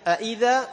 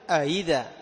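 First: The second hamza is pronounced fully. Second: The second hamza is eased toward a y sound.

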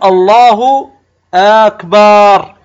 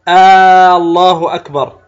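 First: The vowel after the b is lengthened. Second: The opening vowel of Allah is lengthened. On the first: It turns the word into a different word. "يعني وكأنك تمد الباء، فتجعل الكلمة صارت أكبار" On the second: It turns the phrase into a question. "بعضهم يمد همزة لفظ الجلالة"

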